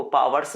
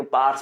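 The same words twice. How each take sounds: First: पावर्स said in two syllables, PAA-var-s; पावर्स as spelt, paa-var-s; two-syllable powers. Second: पार्ट्स said as one syllable, paars; पार्ट्स run together into a long-vowel "paars"; one-syllable powers. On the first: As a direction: say पावर्स with a clear v in the middle. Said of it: "वो पावर्स नहीं पढ़ेंगे". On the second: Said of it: "पार्ट्स पढ़ते हैं". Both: Shown as a demonstration.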